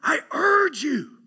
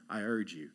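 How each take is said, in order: First: It is said with urgent, pleading feeling. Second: It is said plainly, without much feeling.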